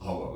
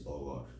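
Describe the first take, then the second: First: The word begins with an audible H sound. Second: The word begins with no H sound. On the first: This is the English pronunciation. "in English, it's horror, right? The H is pronounced" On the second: This is the Spanish pronunciation. "in Spanish, it's horror. In Spanish, you don't pronounce the H"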